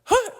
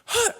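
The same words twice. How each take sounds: First: It is said in a wild, crazy way. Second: It is said in a wild, crazy way.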